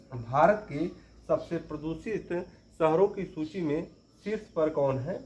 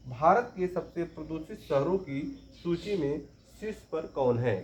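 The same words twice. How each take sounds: The two takes are said the same way.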